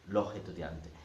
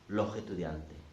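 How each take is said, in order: No difference in how they are said.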